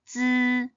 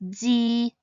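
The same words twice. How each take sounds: First: The vowel sounds like a buzzing er. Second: The vowel sounds like a clear ee. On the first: The speaker calls it right. "Instead, it should be pronounced as zi" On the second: The speaker calls it wrong. "the pinyin zi is not zi"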